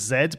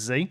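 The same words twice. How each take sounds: First: The letter is named the British way. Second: The letter is named the non-British way.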